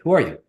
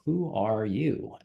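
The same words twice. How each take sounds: First: The question is said at a quick, ordinary pace. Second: The question is said slowly and deliberately. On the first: It is asked in the usual casual way. "usually it's very like" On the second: It makes the listener think more deeply. "you slow it down and go"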